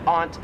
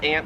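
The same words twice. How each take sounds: First: "aunt" with a broad "ah"; Australian pronunciation. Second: "aunt" said like "ant"; flat A in "aunt", as in the insect; American pronunciation. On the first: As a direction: open "aunt" up to "ahnt". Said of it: "Here in Australia". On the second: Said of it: "like your aunt and uncle". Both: Shown as a demonstration.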